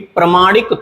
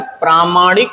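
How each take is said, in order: First: The first vowel is short. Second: The first vowel is long. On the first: The speaker calls it wrong. "प्रमाणिक थोड़ी होता है" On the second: The speaker calls it right. "प्रामाणिक होता है"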